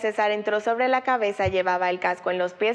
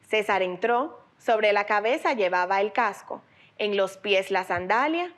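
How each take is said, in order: First: The pause comes after 'cabeza', not after 'entró'. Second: The pause comes after 'entró', not after 'cabeza'.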